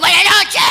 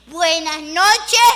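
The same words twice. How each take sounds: First: It is said angrily, with hatred. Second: It is said as a plain, friendly greeting.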